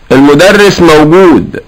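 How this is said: It is said with a statement tune. The speaker is telling that the teacher is there. "يفهم ان المدرس حاضر"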